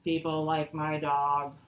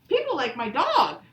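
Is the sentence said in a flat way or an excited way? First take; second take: flat; excited. First: It is said flatly, without excitement. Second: It is said with lively excitement. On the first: The speaker calls it wrong. "I don't say" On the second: The speaker calls it right. "I would say it with some excitement"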